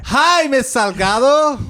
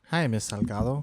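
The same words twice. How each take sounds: First: It is yelled very loudly. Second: It is said very quietly. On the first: "You're the one who yelled" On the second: "you did it quiet"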